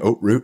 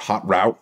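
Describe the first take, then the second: First: It is said the European way. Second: It is said the American way.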